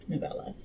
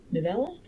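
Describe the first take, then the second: First: Said in the usual way. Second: NOVELLA with a rising, unsure lift; questioning. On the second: Real, not acted. Reader unsure of the word for a short book, questioning. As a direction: say NOVELLA as a question, pitch climbing at the end. Checking the word she just used.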